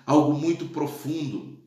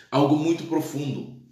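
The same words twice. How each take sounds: The two takes are said the same way.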